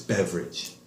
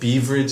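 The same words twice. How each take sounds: First: The first vowel is a short E sound. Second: The first vowel is a long E sound. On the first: The speaker calls it right. "It's a short E, not a long E" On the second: The speaker calls it wrong. "you said beverage"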